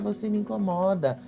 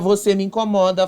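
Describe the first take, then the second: First: It is said in a small, meek voice. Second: It is said in a plain, direct voice. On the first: The feeling is softened and held back. The speaker calls it wrong. "com aquela vozinha assim" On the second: The feeling is stated openly and forcefully. The speaker calls it right. "Fala isso"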